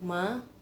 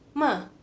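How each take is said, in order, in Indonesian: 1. Diucapkan dengan nada kedua. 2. Diucapkan dengan nada keempat. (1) "nada kedua ini agak susah dibacanya... kayak manggil mama" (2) "nada keempat"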